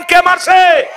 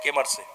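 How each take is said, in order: First: High, loud shouted question. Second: Soft low question to the crowd; prompting quietly. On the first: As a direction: shout it out to rouse the crowd. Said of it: "আরো জোরে বলেন". (জোরে চিৎকার করে প্রশ্ন) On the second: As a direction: ask it softly first. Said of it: "জোরে বলেন, কে মারছে?". (নরম নিচু স্বরে প্রশ্ন) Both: Shown as a demonstration.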